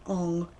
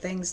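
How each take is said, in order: First: The name's vowel sounds like in 'long'. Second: The name's vowel sounds like in 'hang'. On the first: This is the name as the movie says it. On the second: This is the name as the show says it.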